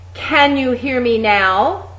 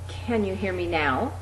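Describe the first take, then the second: First: It is belted out at full volume. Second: It is said at its softest level. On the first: "Really belt that out" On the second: "getting progressively louder each time"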